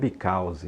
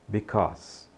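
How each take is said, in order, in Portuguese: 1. Termina com um som de vogal extra no final. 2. Termina limpo, no som de consoante. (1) "Não diga because" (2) "esse Ezinho no final não é pronunciado, então só o S"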